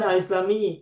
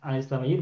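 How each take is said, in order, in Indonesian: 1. Kata itu berakhir dengan vokal i. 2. Kata itu berakhir dengan vokal u. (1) "Bukan al-islami" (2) "makanya al-islamiyu baca domah"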